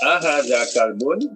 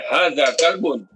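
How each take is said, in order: First: "Ahaza kalbun?" rising at the end; question tune. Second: "Haza kalbun." said slowly, falling at the end; statement tune. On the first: Student showing the teacher a question intonation. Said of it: "cara kita sebut tu kan macam bunyi soalan". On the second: Student contrasting a statement with a question. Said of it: "Macam, macam dengan". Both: Shown as a demonstration.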